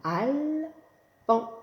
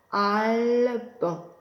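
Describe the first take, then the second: First: Al-ban higher, split in two beats; syllables tapped out. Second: Al-ban in two drawn beats; syllables tapped out. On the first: Teacher to class, chanting the name in two beats. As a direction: sing out each beat. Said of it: "deux syllabes". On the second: Teacher to class, scanning the name in beats. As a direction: chant it in syllables. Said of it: "initiale que vous connaissez". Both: Shown as a demonstration.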